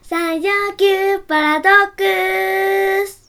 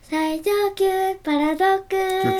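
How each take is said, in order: First: It is said loudly, with lively energy. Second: It is said quietly, with little energy.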